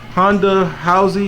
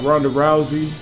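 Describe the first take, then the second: First: Both names begin with an H sound. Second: Both names begin with an R sound.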